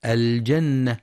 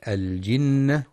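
First: الجنة with a on the jim, as jannah; wrong fatha. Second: الجنة with i on the jim, as jinnah; correct kasra. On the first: Teacher shows the mistake, aljannah. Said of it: "بفتح الجيم". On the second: Teacher gives the right reading, aljinnah. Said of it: "والصواب كسرها". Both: Shown as a demonstration.

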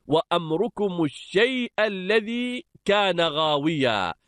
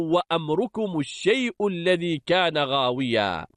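First: الشيء said "ash-shay'a", ending in short a; accusative reading. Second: الشيء said "ash-shay'u", ending in short u; nominative reading. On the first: Teacher reciting verse to students, الشيء as "ash-shay'a". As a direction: end الشيء on an a vowel. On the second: Teacher reciting verse to students, الشيء as "ash-shay'u". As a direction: end الشيء on a u vowel. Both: Shown as a demonstration. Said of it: "أو".

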